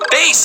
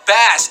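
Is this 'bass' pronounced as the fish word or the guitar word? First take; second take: guitar; fish. First: It is pronounced as the guitar word. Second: It is pronounced as the fish word. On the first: It names a musical instrument. "Bass as in guitar" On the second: It names a kind of fish. "bass as in fish"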